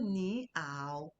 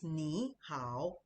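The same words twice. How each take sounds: First: The syllables lack a down-then-up tone. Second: The syllables have a down-then-up tone. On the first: The speaker calls it wrong. "It's not ni hao, no" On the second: The speaker calls it right. "it has the down up"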